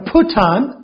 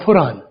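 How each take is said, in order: First: The t is released with a puff of air. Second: The t is a quick flap like r.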